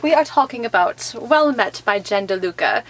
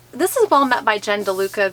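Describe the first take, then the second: First: A lightly done faux Olde English fair accent; hammed-up Renaissance fair accent, understated; terrible Renaissance accent. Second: Said in the usual way. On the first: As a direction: say the book title like a mock Renaissance fair herald. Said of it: "my terrible accent". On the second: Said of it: "get rid of [the accent]".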